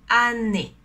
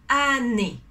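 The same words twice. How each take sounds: Both takes have the same delivery.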